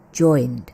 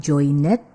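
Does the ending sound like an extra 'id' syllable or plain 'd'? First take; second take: plain d; id syllable. First: The ending is a plain 'd' sound. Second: The ending is an extra 'id' syllable. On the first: The speaker calls it right. "tapi joined" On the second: The speaker calls it wrong. "Bukan joined"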